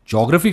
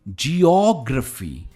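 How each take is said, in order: First: The first part is squeezed into one syllable 'jyo'. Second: The first part is two syllables, 'jee-o'. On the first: The speaker calls it wrong. "कहेंगे नहीं" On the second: The speaker calls it right. "इसे हम कहते हैं जियोग्राफी"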